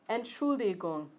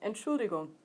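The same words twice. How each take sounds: First: The word is said slowly and carefully. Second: The word is said quickly and run together. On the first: "we'll say it slowly first" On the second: "now Germans say it faster, so we're going to speed it up"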